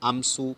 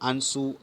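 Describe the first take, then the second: First: A full m consonant is pronounced before s. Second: The vowel is nasalized with no m consonant. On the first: The speaker calls it wrong. "આમસુ નથી હોતું" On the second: The speaker calls it right. "આંસુમાં સ્વર પોતે જ નાસિક્ય"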